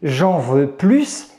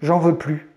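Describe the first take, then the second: First: The final S of plus is pronounced. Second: The final S of plus is silent. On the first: The speaker wants more. "ici c'est une comparaison" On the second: The speaker does not want any more. "c'est une négation"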